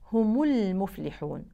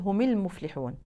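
First: The m is followed by a u vowel. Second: The m is followed by an i vowel. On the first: The speaker calls it right. "النطق الصحيح" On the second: The speaker calls it wrong. "الناس بتكسرها وهذا خطأ شائع"

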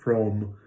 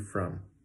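First: The vowel is an open 'ah' sound. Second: The vowel is a relaxed 'uh' sound. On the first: The speaker calls it wrong. "you might be saying something like from or from, but both of those are wrong" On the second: The speaker calls it right. "should have the cup of mustard vowel in it, okay? So it should be very relaxed and very easy"

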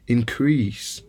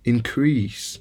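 First: The stress is on the second syllable. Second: The same.

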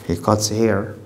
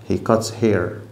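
The two takes are said the same way.

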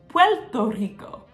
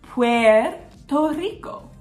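First: Puerto Rican accent, the R sounds like L. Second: The R in Puerto is clearly pronounced.

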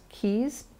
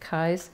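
First: The name has a German pronunciation. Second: The name has a non-German pronunciation. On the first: The speaker calls it wrong. "I thought for a long time it was pronounced Kies because I thought it was a German pronunciation" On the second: The speaker calls it right. "but the family pronounces it Kies"

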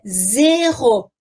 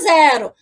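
First: The first vowel is a closed e sound. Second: The first vowel is an open e sound. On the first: This is the French pronunciation. "não vamos abrir o som como a gente faz em português" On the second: This is the Portuguese pronunciation. "Em português é zero"

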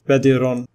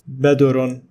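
First: An i vowel is heard after the d. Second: A u vowel is heard after the d. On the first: "nor it is badirun with kasra" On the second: "neither it is badurun with dhamma"

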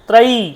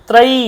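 First: The final vowel is long. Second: The same.

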